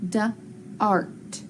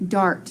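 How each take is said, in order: First: "da-art" split into two separate sounds; sounded out in parts. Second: Said in the usual way. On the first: Shown as a demonstration. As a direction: sound out "da-art" slowly, pausing between the onset and the rest. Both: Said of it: "I'm gonna hook 'em together".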